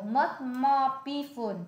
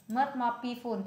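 First: "Much more peaceful" read slowly, each word clear; slow model reading. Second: Said in the usual way. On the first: Shown as a demonstration. Tutor slowly models the English phrase for her student. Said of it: "Thanh bình hơn nhiều".

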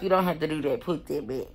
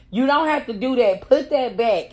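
First: Quieter, softer, lower and gently dismissive; calmer retake. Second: A bit raised, firm order to put it back; mock guard telling her to stop; guard's firm order. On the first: Retold or imitated. Guard gently tells her she needn't bother, quiet and calm. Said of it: "I think she was like". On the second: Female guard orders her to put it back, firm and raised. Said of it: "she was like".

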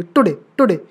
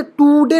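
First: today with a quick, light टु; today with a short, weak first syllable; unstressed first syllable. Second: today with a long, high "टूऊ"; today overstressed on its first syllable; wrong stress on first syllable. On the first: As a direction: pass lightly over the टु of today. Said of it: "तो ये हो गया unstressed". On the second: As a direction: drag out the टु of today. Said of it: "टू को तो today नहीं बोलेंगे". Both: Shown as a demonstration.

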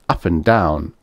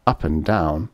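The two takes are said the same way.

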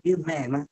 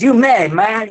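First: Much softer, tossed-off repeat; quiet mock echo of you may. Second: Lightly imitating a rock star saying you may. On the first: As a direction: let it fall away under your breath. Repeat of [name] quote, fading. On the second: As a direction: toss it off like a cool rock star. Quoting [name]'s drawled reply.

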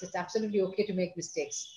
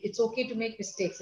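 First: "absolutely" leaned on, then a soft falling close; soft reassuring stress on "absolutely". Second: Said in the usual way. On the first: Shown as a demonstration. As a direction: press the word "absolutely" to reassure.

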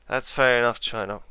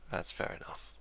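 First: Louder, spoken out to the map; called out. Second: Whispered under his breath; a voiceless aside to himself; muttered. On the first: Player calling across to China, louder. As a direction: address the rival nation loudly and openly. Repeats aside loudly at China. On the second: Player whispering his verdict on China. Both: Real, not acted.

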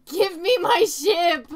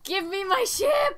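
First: Slow loud demand, stress on "me"; demanding shout. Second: Slow loud demand, stress on "ship"; demanding shout. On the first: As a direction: yell "Give me my ship" hitting "me". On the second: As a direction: yell "Give me my ship" hitting "ship". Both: Real, not acted. Pleading with game to free ship.

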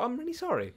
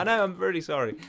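First: Soft, higher loving apology; more loving. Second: Said in the usual way. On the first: Retold or imitated. Son apologises to tired mum, more loving. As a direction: say sorry softly and lovingly, pitched up. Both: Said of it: "I was more loving than".

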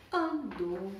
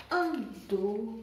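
No difference in how they are said.

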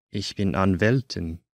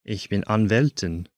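The two takes are said the same way.

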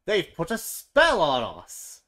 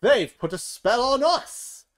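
First: Loud, slow accusing cry. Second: Much higher, loud, slow outraged cry; angry outcry. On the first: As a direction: hurl the blame at the warthogs. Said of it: "cried the other animals". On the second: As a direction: shriek the blame. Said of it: "They stomp off angrily". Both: A narrator's reading.

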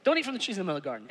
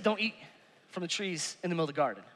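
First: Very fast, soft rattled-off rule; Adam hurriedly repeating his rule to Eve. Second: Softer, lower Adam telling Eve; mild quoted command from the husband; quiet low retold rule; Adam's rule. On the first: Retold or imitated. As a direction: rush through it like a careless husband. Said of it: "He didn't tell her which one". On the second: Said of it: "He said".

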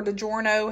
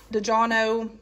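First: DiGiorno said like "duh-JOR-no"; alternate pronunciation. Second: DiGiorno said like "dee-JAH-no"; alternate pronunciation. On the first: Shopper offering another way to say it, DiGiorno pronounced "duh-JOR-no". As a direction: say DiGiorno with a clear "or" in the middle. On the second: Shopper unsure of the pizza brand's name, DiGiorno pronounced "duh-JAH-no". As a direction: say DiGiorno with an open "ah" and no r. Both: Shown as a demonstration. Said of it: "however you pronounce it".

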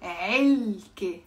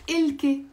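First: "علكة" slowly as 3elke, deep throat ayn drawn out; strong ayn. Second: "إلكة" as ilke, starting on a plain vowel; missing ayn. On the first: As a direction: model "علكة" slowly, stretching the first syllable. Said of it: "It's not إلكة". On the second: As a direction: show the mistake: "إلكة" without the throat ayn, higher pitch. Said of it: "It's not". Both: Shown as a demonstration.

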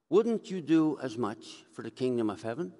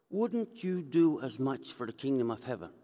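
Both takes have the same delivery.

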